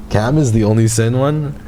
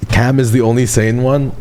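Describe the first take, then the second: No difference in how they are said.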